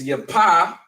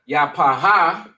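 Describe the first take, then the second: First: The final h is not sounded as a syllable. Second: The final h is sounded as an extra syllable. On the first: The speaker calls it right. "but it's yapa" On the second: The speaker calls it wrong. "it's not yapaha"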